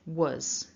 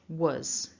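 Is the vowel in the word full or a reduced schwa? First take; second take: schwa; schwa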